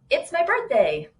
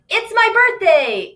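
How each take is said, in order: First: It is said in a calm, plain tone. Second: It is said in a happy, excited tone.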